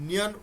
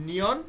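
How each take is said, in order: No difference in how they are said.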